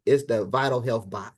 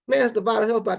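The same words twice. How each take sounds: First: Said in the usual way. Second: Higher and louder, hyping the product; hyped repeat. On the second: Shown as a demonstration. Hyping the bot to the team, louder and higher. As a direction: sell it big the second time.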